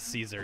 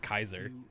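First: The name begins with an S sound. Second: The name begins with a K sound. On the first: The speaker calls it wrong. "it's not Julius Caesar" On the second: The speaker calls it right. "the C letter is pronounced with a K"

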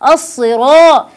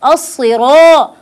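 The two takes are said the same way.

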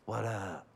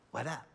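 First: It sounds casual and cool, like he's busy. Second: It sounds eager, not casual.

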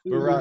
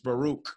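First: The second vowel sounds like 'ah'. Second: The second vowel sounds like 'oo'. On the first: The speaker calls it wrong. "That's the wrong way to say it" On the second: The speaker calls it right. "It's Baruch"

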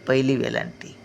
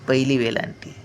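No difference in how they are said.

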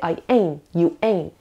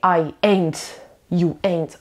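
First: The final T is held back and not heard. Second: The final T is clearly released and heard. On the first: The speaker calls it right. "I say" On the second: The speaker calls it wrong. "So I don't say"

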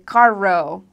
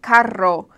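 First: The R is hard, like English. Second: The R is rolled.

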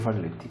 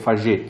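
First: The double l is read the Italian way. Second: The double l is read the Spanish way. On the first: The surname is treated as Italian. The speaker calls it right. "un cognome d'origine italiana si legge Falletti" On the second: The surname is treated as Spanish. The speaker calls it wrong.

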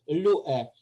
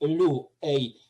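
First: The word ends in a plain 'e' vowel. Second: The word ends in the diphthong 'ei'. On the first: This is the Attic reading. "Ми читаємо на аттичний манер лю-е" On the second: This is how other dialects read it. "Інколи в інших діалектах читали би як лю-ей"

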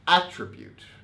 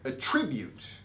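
First: The stress is on the first syllable. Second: The stress is on the second syllable. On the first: It names a feature or quality. "attribute as a noun" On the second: It means to say something is caused by something. "attribute as a verb"

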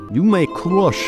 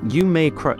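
First: It is spoken in a put-on Russian accent. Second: It is spoken in the speaker's ordinary accent.

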